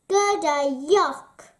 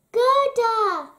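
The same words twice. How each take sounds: First: Louder, mildly grossed-out complaint; a touch of playful yuck; disgusted protest. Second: High, loud cry of her name; raised, ringing call to a friend; shout. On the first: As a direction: push the kisses away with your voice. Boy protests at being kissed. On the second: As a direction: shout it out in joyful recognition. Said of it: "he shouted". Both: A narrator's reading.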